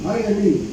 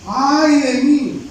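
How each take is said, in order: First: Said in the usual way. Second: "¡Ay de mí!" drawn out slow, higher and louder; dismayed cry. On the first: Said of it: "imagina esa expresión". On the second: Shown as a demonstration. Preacher acts out Isaiah seeing the King, slow high dismayed wail. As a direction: wail "¡Ay de mí!" as if doomed. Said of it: "¿Sabe esa expresión?".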